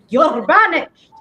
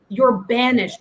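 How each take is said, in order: First: The R is rolled with a trill. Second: The R is said plainly, without a trill.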